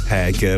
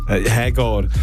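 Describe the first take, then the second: First: The name's ending is swallowed and reduced. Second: The name's ending is pronounced fully and clearly. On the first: This is how the name changed over the years. "durch die Jahre ist das Ganze so ein bisschen verschluckt und verändert worden" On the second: This is the original form of the name.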